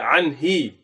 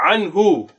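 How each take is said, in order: First: The word ends with an 'i' vowel. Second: The word ends with a 'u' vowel. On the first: The speaker calls it wrong. "you don't say anhi" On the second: The speaker calls it right. "So when you say anhu"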